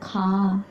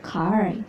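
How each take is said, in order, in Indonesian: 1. Huruf R dihilangkan dan vokalnya dipanjangkan. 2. Huruf R di akhir diucapkan. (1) "British jadinya car, jadi panjang. R-nya tuh hilang" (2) "American car, lebih ke R kan"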